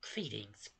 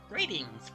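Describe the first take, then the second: First: It is said in an altered character voice. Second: It is said in the usual character voice. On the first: "a slightly different voice than my normal Moogle voice" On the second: "my normal Moogle voice"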